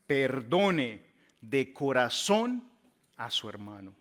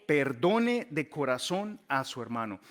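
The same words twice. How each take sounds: First: "Perdone de corazón" drawn out very slowly, rising on "corazón"; slow emphasis. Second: Said in the usual way. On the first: Acted. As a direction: stretch every word of "Perdone de corazón a su hermano" for weight. Emphatic slow climax of verse.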